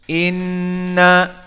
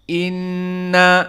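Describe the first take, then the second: First: The doubled n resonates clearly through the nose. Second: The doubled n resonates clearly through the nose.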